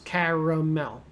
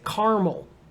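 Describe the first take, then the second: First: The word is said with three syllables. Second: The middle vowel is dropped, leaving two syllables. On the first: "Three sounds" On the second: "You kind of skip the A in the middle"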